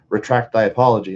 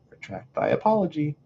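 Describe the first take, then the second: First: It is said in a plain, normal voice. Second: It is said in a lowered, softer voice. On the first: The speaker calls it wrong. "It's not just retract thy apology" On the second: The speaker calls it right. "lowering the voice"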